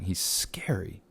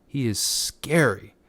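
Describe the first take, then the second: First: Soft breathy whisper, almost to yourself; hushed whisper. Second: Spooky stage whisper. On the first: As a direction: whisper it softly, like a secret. Spooky aside about chilling villain. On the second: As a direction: whisper it like telling a ghost story. Repeats the line more dramatically. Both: Pretend.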